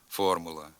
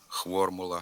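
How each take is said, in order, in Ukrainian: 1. Слово починається на звук f. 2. Слово починається на звук khv. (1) "слід вимовляти" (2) "його заміняють двома звуками «х» і «в»"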